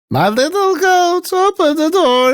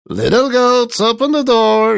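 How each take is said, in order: First: The wolf speaks in a soft voice. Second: The wolf speaks in a rough voice.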